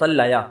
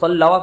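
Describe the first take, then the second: First: The middle consonant is a y sound. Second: The middle consonant is a w sound. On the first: This is the form actually used in speech. "पढ़ते हैं सल्लाया" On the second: This is the underlying form, hard to say. "वाव को या से बदल दिया"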